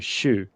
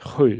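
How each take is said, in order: First: It begins with an sh sound. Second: It begins with the Swedish sj sound. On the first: This is how northern Swedes say it. "in the North they say what we would call an S H" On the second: This is how southern Swedes say it. "The South would say"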